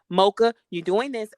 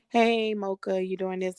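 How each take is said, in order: First: The voice is firm and stern. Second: The voice is light and casual. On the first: The parent is displeased and disciplining. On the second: An ordinary question with no displeasure.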